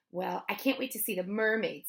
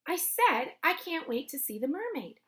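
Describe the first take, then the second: First: Said in the usual way. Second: Higher, insistent, weight on "said"; emphatic repeat. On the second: A narrator's reading. Girl repeating herself to the bully, higher and insistent. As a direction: repeat it pointedly, punching "said" and lifting "mermaid".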